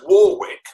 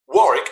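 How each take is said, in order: First: It is said the American way. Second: It is said the British way. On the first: It is how the name is said in America. "people see it over there as Warwick" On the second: It names the English county. "as in Warwickshire, the county"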